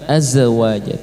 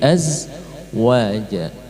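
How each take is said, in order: First: The z sound is cut short without flowing. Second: The z sound is drawn out and flowing. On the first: The speaker calls it wrong. "bukan azwaja" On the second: The speaker calls it right. "tapi azwaja"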